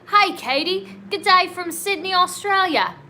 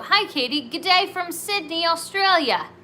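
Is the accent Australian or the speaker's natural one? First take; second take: Australian; natural. First: It is read in an imitated Australian accent. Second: It is read in the speaker's natural accent.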